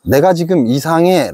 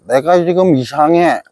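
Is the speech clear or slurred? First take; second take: clear; slurred. First: The phrase is articulated clearly and precisely. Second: The phrase is articulated in a slurred, tongue-tied way. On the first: "이렇게 얘기를 하는데" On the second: "이렇게 혓꼬인 소리를 한다든지"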